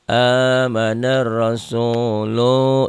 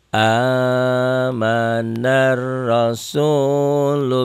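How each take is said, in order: First: The final 'lu' vowel is drawn out long. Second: The final 'lu' vowel is kept short. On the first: The speaker calls it wrong. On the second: The speaker calls it right.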